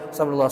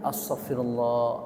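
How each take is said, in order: First: It is said quickly and rushed. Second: It is said slowly and drawn out. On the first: The words are recited without feeling. The speaker calls it wrong. "kalau begitu mas seribu kali juga oke-oke aja, tapi nggak ada faedahnya" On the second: The words are felt and meant. The speaker calls it right. "Begitu, itu aja udah lama loh"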